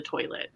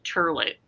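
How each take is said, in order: First: Said in the usual way. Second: "turlet", with an er vowel in place of oy; Jersey City pronunciation. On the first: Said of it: "turlet for the toilet". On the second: Retold or imitated. Quoting a Jersey City coworker, "turlet" with an er sound. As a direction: say toilet as "turlet". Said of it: "she would say turlet".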